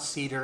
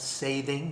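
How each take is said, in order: First: The word is said like 'cedar'. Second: The word is said like 'sathing'. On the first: The speaker calls it wrong. "No, it's not cedar" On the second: The speaker calls it right. "I call it sathing"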